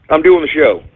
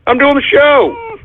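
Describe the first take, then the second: First: Said in the usual way. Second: High-pitched, frustrated outburst; exasperated protest. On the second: Real, not acted. Host to dog during the show, exasperated.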